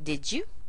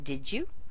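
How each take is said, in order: First: The D and Y merge into a J sound. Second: The same.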